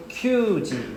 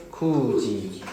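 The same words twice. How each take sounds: First: Kyuji said slowly with a ky glide, marked as the wrong form; drawn-out kyuji, the reading to avoid. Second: Kuji said slowly with a plain k and no glide; slow, careful kuji, the right form; correct reading. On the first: Teacher showing students the wrong reading, slow kyuji. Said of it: "we don't say kyuji". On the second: Teacher modelling for students the right reading, slow kuji. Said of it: "we say kuji". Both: Shown as a demonstration.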